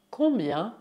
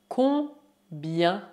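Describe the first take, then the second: First: Said in the usual way. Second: "Combien" in two slow halves; syllable by syllable. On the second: Shown as a demonstration. Teacher models new word, syllable by syllable. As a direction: pause inside "Combien".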